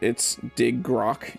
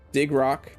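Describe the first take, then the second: First: The name is said with an extra syllable. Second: The name is said without an extra syllable. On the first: "pronounces it with an extra syllable" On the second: "That's what I say"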